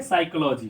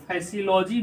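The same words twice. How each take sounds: First: "साइकोलॉजी" with a K sound and no P; correct, silent P. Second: "फैसियोलॉजी", misread letter by letter from psychology; wrong pronunciation. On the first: Teacher giving students the right reading, साइकोलॉजी opening on sai. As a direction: say साइकोलॉजी starting on S. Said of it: "इसको पढ़ेंगे साइकोलॉजी". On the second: Teacher warning students off a misreading, फैसियोलॉजी with F sounded first. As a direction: say फैसियोलॉजी with an F at the front. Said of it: "इसको फैसियोलॉजी नहीं पढ़ेंगे". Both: Shown as a demonstration.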